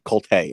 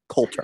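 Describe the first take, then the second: First: The name is said with a French-sounding pronunciation. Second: The name is said with a plain English pronunciation. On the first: The speaker calls it wrong. "I've always wanted to to pronounce it Colte" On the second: The speaker calls it right. "but it's Coulter"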